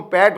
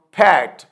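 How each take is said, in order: First: پیٹ with a plain unaspirated p, no puff; unaspirated Urdu p. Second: پھیٹ with a strong puff of air on the p, slow; aspirated English p. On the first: Teacher giving the Urdu form before English. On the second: Teacher contrasting English پھیٹ with Urdu پیٹ. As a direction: say پھیٹ with aspirated ph, not plain p. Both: Shown as a demonstration. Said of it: "Urdu میں اس کو ہم پیٹ بولتے ہیں".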